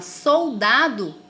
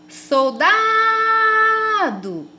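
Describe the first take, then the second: First: All syllables are said at normal length. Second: The syllable da is drawn out, like calling someone. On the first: "Quando eu falo soldado" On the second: "agora eu vou chamar o nome dela"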